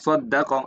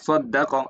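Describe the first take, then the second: First: The doubled consonant is passed over quickly. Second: The same.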